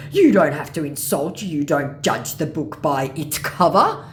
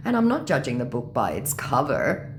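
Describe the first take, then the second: First: Loud, slow scammer voice, rising end; reproachful mock scammer. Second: Said in the usual way. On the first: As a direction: scold as the offended scammer.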